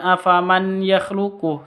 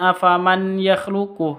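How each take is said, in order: First: The n is pronounced clearly before the y. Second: The same.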